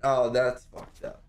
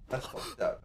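First: Said in the usual way. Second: Whispered. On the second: Real, not acted. Shocked reaction repeated hushed.

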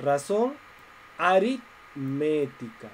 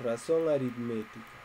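First: Drawn-out, slow dictation of each syllable; lengthened final "aritmética" with a falling close. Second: Said in the usual way. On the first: Shown as a demonstration. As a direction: spell it out slowly for the class.

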